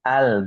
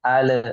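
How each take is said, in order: First: The l sound flows smoothly without bounce. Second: The l sound is bounced with an echo. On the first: The speaker calls it right. "tapi al. Dialirkan saja" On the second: The speaker calls it wrong. "Tidak boleh dipantulkan. Bukan al"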